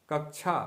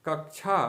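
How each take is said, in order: Both takes have the same delivery.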